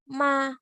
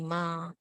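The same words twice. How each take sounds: First: The pitch is high and level. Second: The pitch is not high and level. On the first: The speaker calls it right. "it will be ma. You notice I go high, but I go flat" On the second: The speaker calls it wrong. "So it will not be ma"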